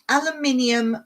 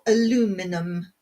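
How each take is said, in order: First: It has five syllables, ending in -inium. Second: It has four syllables, ending in -inum. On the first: "that's what we say" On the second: "as you Americans say"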